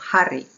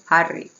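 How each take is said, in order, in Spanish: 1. La H al principio se pronuncia claramente. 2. La H al principio apenas se pronuncia. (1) "no digo Harry" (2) "como si no hubiera ni H ni J"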